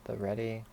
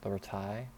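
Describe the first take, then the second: First: The name is said like 'ready'. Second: The name is said like 're-tie'. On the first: Other people say it this way. "I've heard some people say the ready" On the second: The speaker says it this way. "in my mind I've been calling it the retie"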